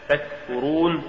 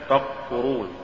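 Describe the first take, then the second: First: Said in the usual way. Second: تكفرون with ك turned into ق; mispronounced ك. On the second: Shown as a demonstration. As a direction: say تكفرون as "taqfurun". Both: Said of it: "تقرأ لحنا".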